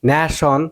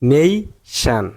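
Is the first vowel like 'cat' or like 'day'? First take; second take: cat; day. First: The first vowel sounds like the vowel in cat. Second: The first vowel sounds like the vowel in day. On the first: The speaker calls it wrong. "বাংলাদেশের মতো উচ্চারণ করেন ন্যাশন" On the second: The speaker calls it right. "উচ্চারণ হবে নেই শান"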